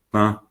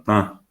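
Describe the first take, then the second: First: "ta" said with plain oral a, air through the mouth only. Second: "ta" with nasalised a, air through the nose; Guaraní nasal "ta". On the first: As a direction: say "ta" clean and oral, no nasal. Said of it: "sino ta". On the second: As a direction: let the a of "ta" ring in the nose. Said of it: "no digo ta". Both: Shown as a demonstration.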